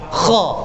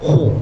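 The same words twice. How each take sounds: First: It is said light, with the mouth open. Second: It is said heavy, with a closed mouth. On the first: The speaker calls it right. "Kita mesti buka kha" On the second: The speaker calls it wrong. "jangan kha"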